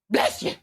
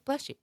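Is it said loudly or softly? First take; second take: loudly; softly. First: It is said loudly, like a loud sneeze. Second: It is said softly, like a polite sneeze.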